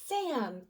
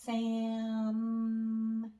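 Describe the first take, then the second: First: The word is said quickly as one unit. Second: The word is stretched out very slowly. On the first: "let's get ready to say it fast" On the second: "Let's blend really, really slow"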